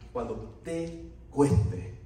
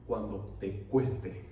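First: Slow right down, lift and lengthen "te"; stress on TE. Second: Said in the usual way. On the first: Shown as a demonstration. Preacher asks what when following Christ costs, stressing "te".

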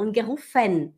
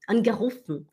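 First: "angerufen" ending in a clear FEN; wrong full final E. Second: "Angerufen" ending in fn, no final vowel; correct swallowed E. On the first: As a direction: demonstrate "angerufen" with the last E voiced. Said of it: "E não". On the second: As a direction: model "Angerufen" with the last E dropped. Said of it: "E não angerufen". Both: Shown as a demonstration.

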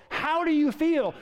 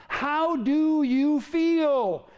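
First: Said in the usual way. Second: Drawn out slowly; slow question. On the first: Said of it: "repeated question". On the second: Real, not acted. Preacher slowly asking the congregation how they feel, drawn out. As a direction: let each word hang. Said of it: "preacher asks congregation slowly".

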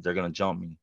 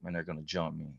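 First: Said in the usual way. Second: Much softer, dreading under his breath; quiet dread. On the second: Retold or imitated. Boy dreading the bullies before the bathroom, much softer.

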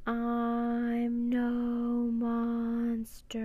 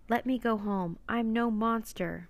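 First: Very slow, high, sustained chant; eerie creature voice. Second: Clear, deliberate human voice; emphatic relaying. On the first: Octopus speaks to the stunned crew, eerie and drawn-out. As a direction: stretch every word into one long mournful call. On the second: Annie repeats the octopus's words to the silent crew, emphatic. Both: A narrator's reading.

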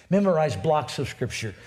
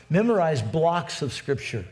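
No difference in how they are said.

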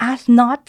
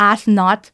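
First: "ask not" punched higher and louder, "not" rising; stress on ask not. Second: "ask not" said slow and a bit louder, "ask" leaned on; stress on ask not. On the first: Shown as a demonstration. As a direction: hit "ask not" as the key phrase. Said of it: "จังหวะที่หยุดอะค่ะ". (เน้น "ask not" เสียงสูงและดังขึ้น) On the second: Retold or imitated. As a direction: put weight on "ask not" like a speech opener. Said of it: "มันเป็นโทนเสียง". (เน้นคำว่า "ask not" หนักๆ)

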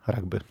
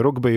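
First: „rugby” przez „a”: ragby; wymów „rugby” z angielska, jako „ragby”; dopuszczalna angielska wymowa. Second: „rugby” przez „u”, jak się pisze; wymów „rugby” z polska, z samogłoską „u”; zwyczajowa polska wymowa. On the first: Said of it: "nikogo nie bijemy za to". („rugby” z samogłoską „a” zamiast „u”) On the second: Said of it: "zazwyczaj mówimy rugby i rugbyści". („rugby” po polsku, nie „ragby”) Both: Shown as a demonstration.

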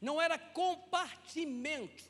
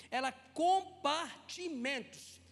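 First: Said in the usual way. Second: Compartimentos drawn out slowly, ending stressed; stress on the plural. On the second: Shown as a demonstration. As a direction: stretch compartimentos, leaning on the final s. (compartimentos dito devagar, com ênfase no plural) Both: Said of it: "Deixa eu te explicar isso".

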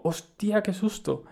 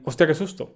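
First: Higher, sudden startled cry; startled exclamation. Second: The same words held in, calmer; calmer, inward. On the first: Retold or imitated. Retelling his fright at the crutch, a startled high outcry. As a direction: blurt it out in a fright. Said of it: "O sea, fue más como un". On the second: Shown as a demonstration. Correcting how he really said it, calm and inward. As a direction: keep the fright inside, composed. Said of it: "Más calmado, ¿sabes? Más interior".

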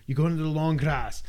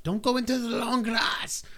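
First: Said in the usual way. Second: Mock warning. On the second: Game's warning quoted.

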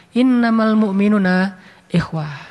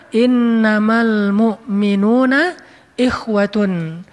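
First: Said in the usual way. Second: Slow, drawn-out Quranic chant; measured Arabic recitation, every syllable stretched. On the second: Acted. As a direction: intone the verse slowly and reverently. Quoting a Quran verse.

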